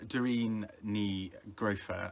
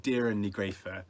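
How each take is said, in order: First: The first name sounds like Doreen. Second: The first name sounds like Deirdre. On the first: The speaker calls it wrong. "I mispronounced that" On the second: The speaker calls it right. "how she says it"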